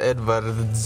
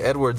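First: It has a V sound and a hard R. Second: It has an English W and a soft R. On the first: This is how Russians say the name. "With the really hard R" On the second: This is how English speakers say the name. "they don't say Edwards"

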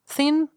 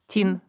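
First: It starts with a soft th sound. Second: It starts with a hard t sound.

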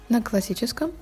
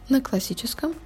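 Both takes have the same delivery.

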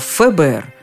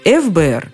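First: The F is said differently from its alphabet name. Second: The F is said with its alphabet name. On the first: This is the established usage. "а ФБР" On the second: This follows the rule for abbreviations. "вопреки правилам, не ФБР"

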